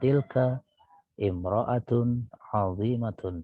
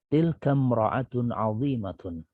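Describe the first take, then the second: First: An extra 'i' vowel separates tilka and mra'atun. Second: Tilka runs straight into mra'atun with no vowel. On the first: The speaker calls it wrong. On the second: The speaker calls it right. "tapi tilkam ro'atun azimatun"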